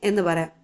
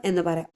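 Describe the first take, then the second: The two takes are said the same way.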